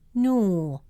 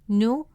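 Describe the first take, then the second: First: The vowel is long. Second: The vowel is short. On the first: "the presence of waw makes it noo" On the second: "Instead of pronouncing it as nu"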